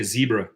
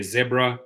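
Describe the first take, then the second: First: "zebra" with a long EE, ZEE-bra; South African pronunciation. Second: "zebra" with a short E, ZEB-ra; other pronunciation. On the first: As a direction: begin "zebra" like the word "zee". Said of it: "we say zebra". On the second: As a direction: say "zebra" to rhyme its start with "web". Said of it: "Some say zebra". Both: Shown as a demonstration.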